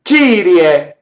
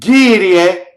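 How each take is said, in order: No difference in how they are said.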